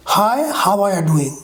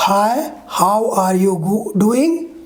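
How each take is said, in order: First: "how are you" blended into "hava-ya"; reduced form. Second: Slow, separated "how are you"; unreduced pronunciation. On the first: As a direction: link "are you" as a weak "a-ya". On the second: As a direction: spell out "how are you doing" word by word. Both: Shown as a demonstration. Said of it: "how it changed".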